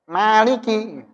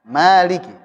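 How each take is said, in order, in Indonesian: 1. Vokalnya didorong keluar melalui hidung. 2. Vokalnya keluar melalui mulut.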